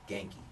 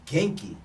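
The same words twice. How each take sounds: First: Said in the usual way. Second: "Genki." said louder and bright, showing bubbly energy. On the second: Shown as a demonstration. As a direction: pop the word "Genki." out cheerfully, louder. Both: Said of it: "Genki is like, um, bubbly".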